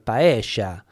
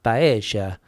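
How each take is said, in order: First: The double L has the River Plate sound. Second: The double L has the River Plate sound.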